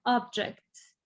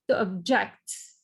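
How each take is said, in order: First: Object, noun form; stress on OB. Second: To object, slowed, JECT stressed; object, verb form. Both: Shown as a demonstration. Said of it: "You see how sound is different".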